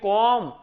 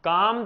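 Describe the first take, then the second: First: The vowel is an o sound. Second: The vowel is an open a sound. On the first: This is the Charotar and North Gujarat dialect form. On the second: This is the standard Gujarati form.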